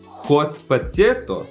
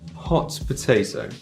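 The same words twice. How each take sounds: First: The h is harsh and rasping in the throat. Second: The h is soft, just breathed out. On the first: The speaker calls it wrong. "Instead of" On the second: The speaker calls it right. "try and say"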